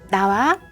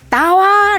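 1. 목소리를 높이지 않고 차분하게 말합니다. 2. 목소리를 높여 크게 부릅니다. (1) "목소리와 제스처를 같이 갑니다" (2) "가까이 가는 것이 목소리 높이지 않는 비법이에요"

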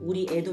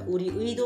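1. 마지막 음절에는 단모음 'e'가 있습니다. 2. 마지막 음절에는 이중모음 'ui'가 있습니다. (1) "우리애도 맞는 것이죠" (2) "우리의도 맞고"

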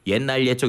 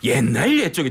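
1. 차분하고 담담한 목소리로 말해요. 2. 강렬하고 열정적인 목소리로 말해요.

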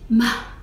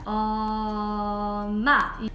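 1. 단어가 나오기 전에 잠깐 멈춥니다. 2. 첫 소리가 길게 늘어집니다. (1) "막힘이라는 거는 그 말을 하다가 중간에 잠깐 멈춤이 있는 거예요" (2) "연장이라는 거는 한 음을 한 말소리를 길게 발음하는 겁니다"

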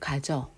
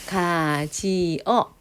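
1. 마지막 두 모음이 하나의 음절로 합쳐져요. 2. 이 단어는 세 개의 음절로 나뉘어요. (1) "가지어 하면 가져" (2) "가지어 하면 가져"

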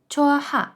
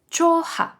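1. Звук h вимовляється між голосними. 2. Звук h вимовляється між голосними.

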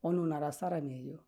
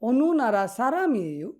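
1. এটি সমতল, বিবৃতিমূলক সুরে বলা হচ্ছে। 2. এটি প্রশ্নবোধক সুরে বলা হচ্ছে। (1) "আমি যদি এভাবে বলি ... প্রশ্ন করা কি হইল? হইল না।" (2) "আপনি টোনটা চেঞ্জ করে দিন, আপনি প্রশ্নর মতো করেন"

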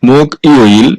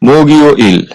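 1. শব্দটি দুটি আলাদা অংশে বলা হয়। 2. সিলেবলগুলো একসাথে বলা হয়, ব্যঞ্জনটি যুক্ত থাকে।

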